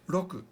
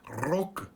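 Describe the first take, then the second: First: The R is a quick tap, like D. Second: The R is a fully rolled trill. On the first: The speaker calls it right. "It's more like a R D sound" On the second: The speaker calls it wrong. "like the beginning of a rolling R, but it's not roku"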